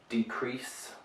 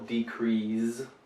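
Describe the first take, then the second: First: The last consonant is an S sound. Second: The last consonant is a Z sound. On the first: The speaker calls it right. "It's a S sound" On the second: The speaker calls it wrong. "put a Z in here"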